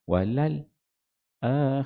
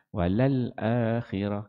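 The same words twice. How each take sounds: First: A brief stop comes before 'akhirah'. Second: It flows straight on with no stop. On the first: "Kalau saktah" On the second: "Tahqiq ni masuk baca yang yang biasa"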